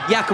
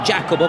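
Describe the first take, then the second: First: The name is said the Spanish way. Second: The name is said the English way. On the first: The speaker calls it right. "I hope I've pronounced that uh, correctly" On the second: The speaker calls it wrong. "the English would say Jacobo, but that's not quite uh, the, the correct way"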